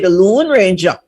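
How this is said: 'Lone' is said with a long 'oo' vowel. "we pronounce it as a double O"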